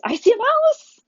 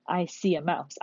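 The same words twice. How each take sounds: First: Shocked, high, loud squeal; super surprised. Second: Said in the usual way. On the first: Shown as a demonstration. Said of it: "I'm gonna sound super surprised". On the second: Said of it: "That's how I'm gonna say it".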